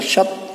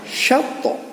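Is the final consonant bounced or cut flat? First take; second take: flat; bounced. First: The final consonant stops flat with no bounce. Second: The final consonant is released with a bounce. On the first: The speaker calls it wrong. "Tidak sekedar dibaca syat" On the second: The speaker calls it right. "harus ada goncangan atau ada pantulan"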